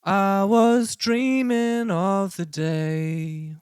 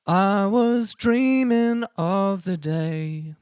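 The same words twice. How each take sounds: First: Sung with light auto-tune; half auto-tune. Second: Sung with hard robotic auto-tune; full auto-tune. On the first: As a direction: sing it with pitch correction halfway on. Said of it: "I'll show you what it sounds like at fifty percent". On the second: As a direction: sing it fully snapped to pitch. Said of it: "Let's try it at a hundred percent". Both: Shown as a demonstration.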